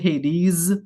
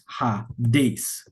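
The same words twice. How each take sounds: First: The final consonant is a buzzing Z sound. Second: The final consonant is a hissing S sound. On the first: The speaker calls it wrong. "like the S has a Z sound" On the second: The speaker calls it right. "It's actually pronounced Hades. Original Greek"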